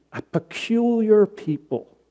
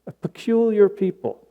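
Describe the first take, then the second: First: Said in the usual way. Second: "peculiar" lifted higher and dwelt on; stress on peculiar. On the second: Shown as a demonstration. Preacher repeating the scripture phrase, stress on "peculiar". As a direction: lean into "peculiar" like a quoted phrase. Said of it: "calls Christians a peculiar people".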